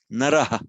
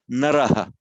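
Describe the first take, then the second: First: It ends in h plus a faint echoed vowel. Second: It ends in h plus a faint echoed vowel.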